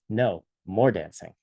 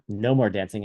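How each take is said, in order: First: There is a pause after no. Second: It is said without a pause after no.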